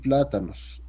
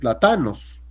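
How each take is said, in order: First: The stress falls before the second-to-last syllable. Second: The stress falls on the second-to-last syllable. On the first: "No va a decir plátanos" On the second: "va a acentuar en la penúltima sílaba"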